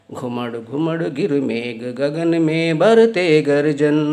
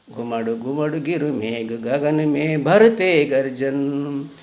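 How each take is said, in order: Both takes have the same delivery.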